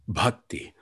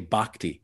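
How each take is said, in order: First: The word is said with a Hindi pronunciation. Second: The word is said with an anglicized pronunciation. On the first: The speaker calls it right. "he says bhakti, the true pronunciation" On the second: The speaker calls it wrong. "he doesn't say bhakti"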